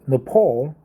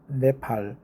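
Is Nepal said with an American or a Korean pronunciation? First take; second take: American; Korean. First: It is said with an American pronunciation. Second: It is said with a Korean pronunciation. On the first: This is how Americans say it. "Americans call it Nepal" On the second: This is how people in the speaker's country say it. "We we call the country Nep- Nepal"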